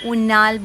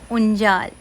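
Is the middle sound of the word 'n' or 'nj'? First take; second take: n; nj. First: The middle consonant is a plain n sound. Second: The middle consonant is an nj sound. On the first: The speaker calls it wrong. "Sorry सॉरी उंजाल, no उन्नाल" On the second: The speaker calls it right. "Sorry सॉरी उंजाल"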